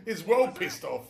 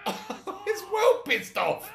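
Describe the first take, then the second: First: Said in the usual way. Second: Cracking up, high and slow; laughing. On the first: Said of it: "He's well pissed off his old fucking Michael's". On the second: Real, not acted. Player repeating the joke about angry Trevor, laughing high. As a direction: squeal it through laughter.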